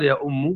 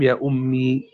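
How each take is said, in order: First: يا أم said ya ummu, ending in "u"; damma ending. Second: يا أمي ending in "ee", ummee; original ya ending. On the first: Teacher showing the weak dialect form, يا أم ending "-u". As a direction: put a damma on the meem of يا أم. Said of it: "بناء على الضم". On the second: Teacher giving students the original form, يا أمي ending "-ee". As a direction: close يا أمي on a long "i" sound. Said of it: "أصل الكلام". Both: Shown as a demonstration.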